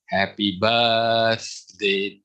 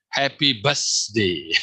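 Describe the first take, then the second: First: The 'th' is said with the tongue between teeth. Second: The 'th' is said without the tongue between teeth. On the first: The speaker calls it right. "but I hope" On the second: The speaker calls it wrong. "Sometimes I heard"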